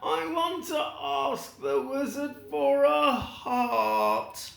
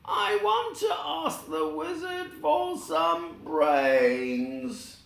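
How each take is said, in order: First: Tin Man wishing. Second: High, slow, hopeful voice; long for what you lack; Scarecrow wishing. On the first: Tin Man explains his wish. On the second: The Scarecrow wishing for brains from the wizard, high and slow. Scarecrow explains his wish. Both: Acted.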